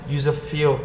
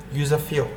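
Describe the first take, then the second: No difference in how they are said.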